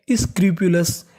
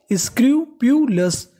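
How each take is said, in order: First: Said in the usual way. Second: scrupulous said slowly and higher, each syllable stretched; slow raised model word. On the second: Shown as a demonstration. Teacher modelling the new word slowly for students. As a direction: lift scrupulous up and draw it out. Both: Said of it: "क्या बन गई?".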